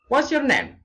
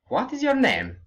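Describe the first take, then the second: First: What is is shortened to one syllable. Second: What is is said as two full words. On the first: The speaker calls it right. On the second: The speaker calls it wrong.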